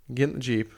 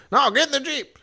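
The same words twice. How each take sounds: First: Said in the usual way. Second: Pitched-up, emphatic command; insistent shouted order. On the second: Retold or imitated. Fred overrules taking the truck, insistent high shout. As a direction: overrule them with a high holler.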